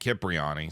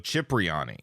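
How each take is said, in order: First: It begins with a k sound. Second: It begins with a ch sound. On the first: "at one point" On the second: "pronounced C H like in chocolate"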